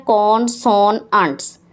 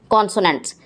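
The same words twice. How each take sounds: First: "कॉन्सोनंट्स" in three beats, con, so, nants; split into syllables. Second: Said in the usual way. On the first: Shown as a demonstration. Teacher counting syllables for pupils, "कॉन्सोनंट्स" beat by beat. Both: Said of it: "इसमें तीन syllable हैं".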